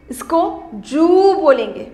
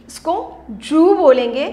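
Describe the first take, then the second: First: "जू" held long, falling at the end; slow sound demo. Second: "जू" held long with rounded u, rising; slow sound demo. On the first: Teacher repeats "जू" for children, slow and falling. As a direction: sound out "जू" slowly and close it down. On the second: Teacher shows children how to say "जू", slow. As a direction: sound out "जू" slowly for the class. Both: Shown as a demonstration.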